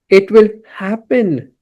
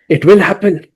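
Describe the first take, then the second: First: It sounds lazy and unhurried. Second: It sounds firm and determined. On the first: It will be put off until later. The speaker calls it wrong. "language of procrastination" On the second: It is certain to be done. The speaker calls it right. "if we say it with determination"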